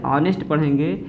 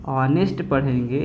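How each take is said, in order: Both takes have the same delivery.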